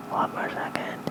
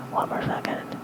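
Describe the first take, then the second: No difference in how they are said.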